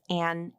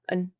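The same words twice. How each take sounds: First: The vowel is full and clearly pronounced. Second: The vowel is reduced to a weak schwa. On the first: "instead of an" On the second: "I'm reducing that vowel to the schwa"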